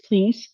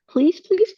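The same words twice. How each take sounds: First: Said in the usual way. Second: Pleading please. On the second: Real, not acted. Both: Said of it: "leave reviews everywhere".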